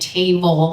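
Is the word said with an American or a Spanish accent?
Spanish. It is said with a Spanish accent. "the ways she said um, pronounced words, like saying table"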